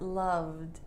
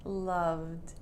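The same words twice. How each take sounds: First: The ending is a short D sound. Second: The ending is a short D sound.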